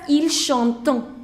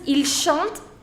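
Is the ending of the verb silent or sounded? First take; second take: sounded; silent. First: The verb ending is pronounced aloud. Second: The verb ending is left silent. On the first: The speaker calls it wrong. "the biggest mistake which I've seen is people pronounce it as ils chantent. No" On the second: The speaker calls it right. "you never pronounce that. So it is il chante"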